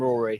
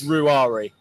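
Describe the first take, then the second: First: The name is said with two syllables. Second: The name is said with three syllables. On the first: The speaker calls it wrong. "if people call him Rory" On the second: The speaker calls it right. "so it's Ruari"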